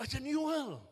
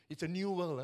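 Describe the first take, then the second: First: NEW WORLD pitched higher, louder; emphatic repeat. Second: Said in the usual way. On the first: Real, not acted. Preacher to congregation, stressing "new" high and loud.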